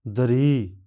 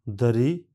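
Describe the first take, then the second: First: दरी with the final ई stretched, louder; extra long vowel. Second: Said in the usual way. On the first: Shown as a demonstration. Teacher contrasts the long दरी with the plain one. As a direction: draw out the ई of दरी. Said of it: "extra long vowel". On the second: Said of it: "साधारण".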